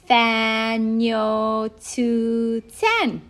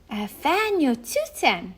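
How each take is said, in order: First: It is said slowly. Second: It is said at normal speed.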